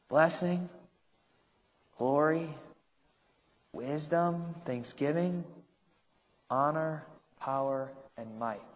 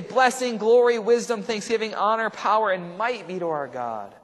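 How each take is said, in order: First: The list is said slowly. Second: The list is said fast.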